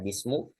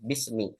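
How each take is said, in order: First: The word ends with a u vowel. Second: The word ends with an i vowel. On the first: The speaker calls it wrong. "Tidak dibaca" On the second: The speaker calls it right. "akhirnya itu dikasrohkan"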